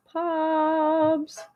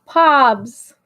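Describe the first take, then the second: First: Softer, stretched-out name; soft drawn-out call. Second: Short, louder call of the name. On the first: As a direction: draw the name out quietly. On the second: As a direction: call it out firmly. Calls a name two ways. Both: Real, not acted.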